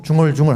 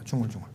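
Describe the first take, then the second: First: Said in the usual way. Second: Very soft, low murmur. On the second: Shown as a demonstration. Preacher shows the congregation what murmuring is, low murmur. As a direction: mumble it low under the breath. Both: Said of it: "이렇게".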